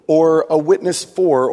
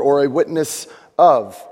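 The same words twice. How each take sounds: First: "for" punched, set against "of"; stress on for. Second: "of" punched, set against "for"; stress on of. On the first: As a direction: lean hard on "for". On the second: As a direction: lean hard on "of". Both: Shown as a demonstration.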